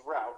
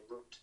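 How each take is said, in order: First: "route" said to rhyme with out, American style; "route" with the ow of cow. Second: "route" said as root, British English way; "route" with a long oo, as in English. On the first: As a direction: say "route" as rowt, like out. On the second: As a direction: say "route" to rhyme with boot, English accent. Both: Shown as a demonstration. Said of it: "Or in my English accent, I should say route".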